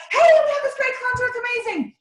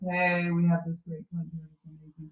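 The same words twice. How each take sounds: First: High, bright excited pitch. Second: Low, flat, unexcited pitch with no lift. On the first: Coach showing a team member an excited pitch, high and lively. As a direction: sell it like you can't contain it. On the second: Coach showing a team member a dull pitch, low and flat. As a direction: say it low and flat, like it's no big deal. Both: Shown as a demonstration. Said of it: "Two totally different, um, tones".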